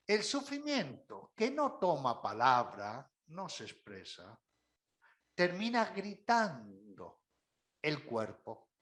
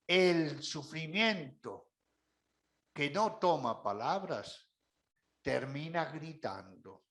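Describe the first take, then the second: First: Hushed solemn repeat; repeated maxim, dropping low. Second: Slow, weighty phrasing with long pauses; solemn quotable line; slow emphatic maxim. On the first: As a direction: repeat the saying, falling away on el cuerpo. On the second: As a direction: lay down the saying slowly, word by word. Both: Shown as a demonstration. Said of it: "les invito a que tengan en cuenta esta expresión".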